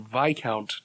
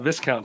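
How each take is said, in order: First: The s sound is silent in the word. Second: The s sound is pronounced in the word. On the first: The speaker calls it right. "but Viscount Terry. That's how you say it" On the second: The speaker calls it wrong. "we have been saying Viscount wrong"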